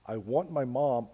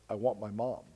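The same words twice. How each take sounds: First: It is screamed at full loudness. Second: It is spoken quietly and softly. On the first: "she's screaming at the top of her lungs" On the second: "almost starts to speak in a soft voice"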